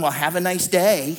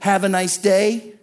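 First: It sounds snide and sarcastic. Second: It sounds warm and sincere.

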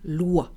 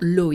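First: The vowel sounds like 'wa' as in water. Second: The vowel sounds like 'oy' as in boy. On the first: The speaker calls it right. "the combination O plus I is making the wa sound" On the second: The speaker calls it wrong. "So it's not loi"

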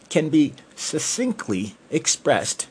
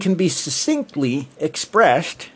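First: The s sounds are crisp, teeth together. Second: The s sounds are lisped, teeth apart. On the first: The speaker calls it right. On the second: The speaker calls it wrong.

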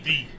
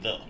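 First: The vowel is a long 'ee' sound. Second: The vowel is a short 'uh' sound. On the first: The speaker calls it wrong. "I don't use TH with the long E's no more" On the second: The speaker calls it right. "I can actually say the"

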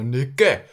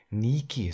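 First: It is said the Austrian way, ending like E. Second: It is said the German way, with long I.

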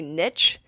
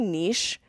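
First: It is said the American way, like nitch. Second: It is said the French way, like neesh.

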